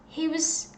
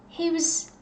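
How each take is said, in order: No difference in how they are said.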